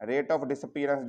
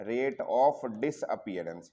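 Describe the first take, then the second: First: Said in the usual way. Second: Very slow, word-by-word dictation; writing-out pace. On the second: Shown as a demonstration. Teacher writing the term out for students, slow dictation. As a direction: spell it out slowly as you write. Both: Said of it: "disappearance लिखता हूँ पहले".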